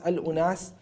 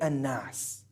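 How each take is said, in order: First: The word is said in full with al- and u. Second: The word is shortened, with the vowels merged away. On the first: This is the original form of the word. "the original word" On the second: This form came from people speaking faster over time. "some people started to speak faster and they started to then say an-nas"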